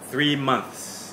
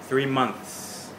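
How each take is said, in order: No difference in how they are said.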